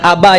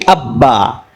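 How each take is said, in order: First: The b sound is short and single. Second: The b sound is held and doubled. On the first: The speaker calls it wrong. "bukan Abba ya bang" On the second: The speaker calls it right. "tapi Abba"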